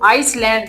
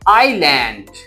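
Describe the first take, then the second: First: The word has an s sound. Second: The word has no s sound. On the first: The speaker calls it wrong. "इसको आइसलैंड नहीं पढ़ना" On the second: The speaker calls it right. "एस silent है"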